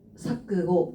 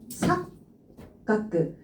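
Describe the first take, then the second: First: The syllables are joined without a held consonant. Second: The middle k sound is held and doubled. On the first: "사끄고 이렇게 들어가는데" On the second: "뒤쪽에 카행이 들어가 있기 때문에 얘 지금 초급으로 바뀐 거예요"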